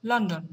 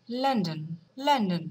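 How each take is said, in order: First: লন্ডন said the American way; American pronunciation. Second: লন্ডন said the British way, as a Londoner would; লন্ডন as London people say it; British pronunciation. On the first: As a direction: give লন্ডন an American accent. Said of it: "কিন্তু আমেরিকানরা বলবে". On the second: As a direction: give লন্ডন a London accent. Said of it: "লন্ডনের people, তারা এটাকে বলবে". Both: Shown as a demonstration.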